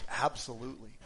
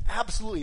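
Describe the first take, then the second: First: Said in the usual way. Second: Louder, higher, punched Absolutely; emphatic absolutely. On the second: Real, not acted. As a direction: bang the word Absolutely down hard. Answering his own question.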